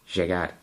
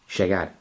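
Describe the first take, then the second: The two takes are said the same way.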